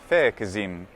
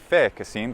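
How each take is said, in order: First: The middle consonant is a voiced z. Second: The middle consonant is a voiceless s. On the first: "but fecizim" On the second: "not merely fecisim"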